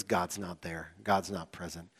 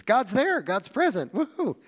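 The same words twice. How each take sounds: First: Low, soft, let-down verdict; deflated, as if giving up on God; mock dejection. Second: High, loud giddy cheer; mock elation. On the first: Preacher voicing Israelites in bad times, mock dejected. Acting out bad-circumstances reasoning. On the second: Preacher voicing Israelites in good times, mock elated. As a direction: celebrate with a hammed-up whoop at the end. Acting out good-circumstances reasoning.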